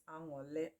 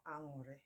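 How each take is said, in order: First: Aṅụrị with an L sound, "ang-o-leh"; dialect variant. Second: Aṅụrị with an R sound, "ang-o-reh"; dialect variant. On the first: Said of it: "Some people call it". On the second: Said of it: "They are the same". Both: Shown as a demonstration.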